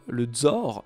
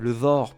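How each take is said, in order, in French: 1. Le mot commence par un son 'dz'. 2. Le mot commence par un son 'th' sonore. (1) "dze à la place du the" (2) "dze à la place du the"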